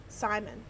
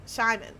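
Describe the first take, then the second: First: "Simon" with a plain s sound at the start; "Simon" starting with s, not sh; S pronunciation. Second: "Simon" with an sh sound at the start; SH pronunciation. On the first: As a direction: say "Simon" opening on a crisp "s", as in "sigh". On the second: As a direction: say "Simon" as "Shy-mon". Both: Shown as a demonstration. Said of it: "Oh, so".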